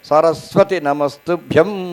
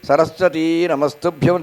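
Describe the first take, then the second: First: The final vowel of Saraswati is kept short. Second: The final vowel of Saraswati is drawn out long. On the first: The speaker calls it right. "అక్కడ హ్రస్వమే ఉంటుంది సంస్కృతంలో" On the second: The speaker calls it wrong. "చాలామంది సరస్వతి నమస్తుభ్యం దీర్ఘం తీస్తారు"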